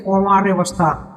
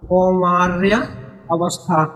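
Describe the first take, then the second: First: Said in the usual way. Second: कौमार्य, a clear pause, then अवस्था; measured dictation of कौमार्य अवस्था, split by a pause; word-by-word repetition. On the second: Shown as a demonstration. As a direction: spell out कौमार्य अवस्था slowly, one word at a time. Teacher repeats the term word by word.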